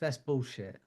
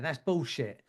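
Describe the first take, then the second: First: It is said in an Australian accent. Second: It is said in a London gangster accent.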